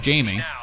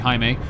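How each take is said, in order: First: The name is said with an English pronunciation. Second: The name is said with a Spanish pronunciation. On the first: This is how younger people say the name. "way everyone else pronounces it" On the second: This is how older people say the name. "People forty and over say it the Spanish way"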